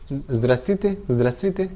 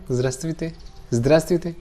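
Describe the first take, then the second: Both takes have the same delivery.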